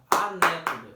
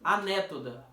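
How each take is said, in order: First: "Anétoda" punched out much louder; syllables beaten out. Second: "Anétoda" with the beat on "né"; stressed syllable shown. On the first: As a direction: hammer out "Anétoda" beat by beat. (Anétoda bem forte, batendo as sílabas) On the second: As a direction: say "Anétoda", leaning on "né". (Anétoda, marcando o "né") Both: Shown as a demonstration. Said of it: "é a sílaba que é a mais forte".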